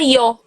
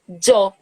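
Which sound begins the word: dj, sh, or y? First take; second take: y; dj. First: It begins with a soft 'y' sound. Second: It begins with a 'dj' sound. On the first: "como se fosse um I" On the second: "como se fosse D J O, yo"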